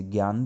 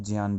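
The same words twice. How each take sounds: First: ज्ञान said with a hard g, gyaan; ज्ञान starting with ग्य; gyaan pronunciation. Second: ज्ञान said with a j, jiyaan; ज्ञान starting with ज्य; jnyaan pronunciation. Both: Shown as a demonstration. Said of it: "इसके दो प्रकार के उच्चारण हैं".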